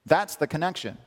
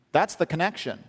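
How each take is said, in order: Both takes have the same delivery.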